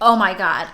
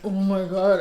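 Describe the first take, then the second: First: It is said in a natural everyday voice. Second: It is said in a put-on, pitch-shifted voice. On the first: The quote is reported plainly. The speaker calls it right. "I just say it in my normal voice" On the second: The quoted person is being mocked. The speaker calls it wrong. "when they change the pitch of their voice"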